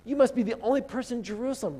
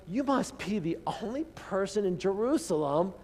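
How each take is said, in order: First: Pitched up, disbelieving You must be the only person; incredulous scoff. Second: Said in the usual way. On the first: Retold or imitated. Disciples scoffing at stranger, higher incredulous voice. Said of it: "they're like". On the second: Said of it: "Do you see what's going on here?".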